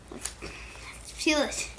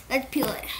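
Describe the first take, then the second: First: Whispered under breath. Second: Said in the usual way. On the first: Real, not acted. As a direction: whisper it while straining. Struggling to open package.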